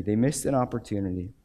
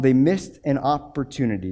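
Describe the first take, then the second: First: Softer, lower echo of the line; quiet repeat. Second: "missed" weighted, falling close; stress on missed. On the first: Preacher letting the lesson land on the church, quiet repeat. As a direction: let it sink in, hushed. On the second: Preacher summing up Corinth for the church, firm stress on "missed". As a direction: drive home "missed". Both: Shown as a demonstration.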